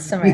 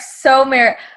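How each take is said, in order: First: The first vowel is light and reduced. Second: The first vowel is a full O sound. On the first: "Like very light on the O" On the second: "he goes like"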